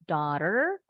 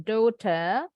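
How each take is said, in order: First: It is pronounced with an American accent. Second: It is pronounced with a British accent. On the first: "American English" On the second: "British English"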